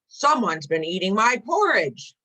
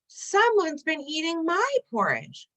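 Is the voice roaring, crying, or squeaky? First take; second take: roaring; crying. First: It is said in a loud roar. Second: It is said in a crying voice.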